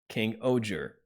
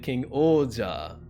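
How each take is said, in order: First: The name ends in an 'er' sound. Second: The name ends in an 'ah' sound. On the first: The speaker calls it wrong. "which sounds bad. Doesn't sound very good" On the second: The speaker calls it right. "if you say King Oja, that's like, okay"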